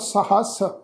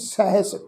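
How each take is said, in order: First: The first vowel is long. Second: The first vowel is short. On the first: The speaker calls it wrong. "ਇਸ ਢੰਗ ਨਾਲ ਉਚਾਰਨ ਨਹੀਂ ਕਰਨਾ" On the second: The speaker calls it right. "ਪਾਠ ਉਚਾਰਨ ਕਰਾਂਗੇ ਜੀ ਸਹਿਸ"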